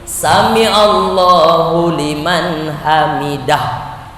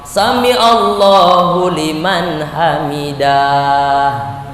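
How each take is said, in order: First: The vowels are kept short, not drawn out. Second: A vowel is drawn out long. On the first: The speaker calls it right. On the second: The speaker calls it wrong. "Kok panjang?"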